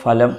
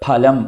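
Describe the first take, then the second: First: It begins with an 'f' sound. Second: It begins with an aspirated 'ph' sound. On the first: The speaker calls it wrong. "ഫലം എന്ന് വായിക്കുക. അത് ശരിയല്ല" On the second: The speaker calls it right. "ഫലം എന്നെഴുതി"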